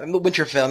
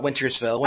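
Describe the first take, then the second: First: Said in the usual way. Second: Wintersfell with an extra s in the middle; slip of the tongue. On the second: Shown as a demonstration. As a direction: say Wintersfell, adding an s after Winter. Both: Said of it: "not Wintersfell".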